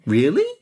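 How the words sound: It is said as a questioning rise. The speaker is asking for confirmation. "Or indeed, as a question"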